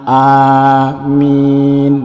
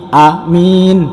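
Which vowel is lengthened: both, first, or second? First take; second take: both; second. First: Both the first and second vowels are long. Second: The first vowel is short, the second long. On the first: Lord, grant our prayer. The speaker calls it right. "kalau alifnya panjang, mimnya panjang, ini baru benar" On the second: Honest and trustworthy. The speaker calls it wrong. "kalau alifnya pendek dan mimnya panjang"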